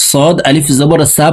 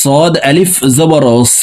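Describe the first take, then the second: First: صاد আলিফ জবর সা with a thin plain s like সিন; the sound সা said thin, not heavy; wrong thin sa. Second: صاد আলিফ জবর স with a thick, heavy emphatic s; স said full and heavy from the back; heavy sad. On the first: Teacher showing the wrong, thin সা. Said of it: "পড়া যাবে না". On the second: Teacher demonstrating the heavy صاد to students. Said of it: "পড়তে হবে এইভাবে মোটা করে". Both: Shown as a demonstration.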